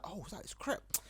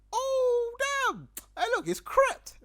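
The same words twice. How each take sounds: First: Hushed, higher-pitched realisation; quiet mock gasp of recognition; inner-voice exclamation. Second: High, loud cry of recognition; hammed-up shock at a celebrity sighting; starstruck exclamation. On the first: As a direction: say it softly, as if only thinking it. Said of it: "I don't say it out loud in my head". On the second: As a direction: blurt it out loud and high on spotting a star. Spots a famous rapper.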